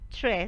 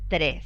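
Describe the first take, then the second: First: The r is a smooth approximant, English-like. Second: The r is a rolled trill. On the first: The speaker is trying to sound English. "production of a postalveolar approximant instead of a trill" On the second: The speaker sounds like a native Spanish speaker. "and not tres"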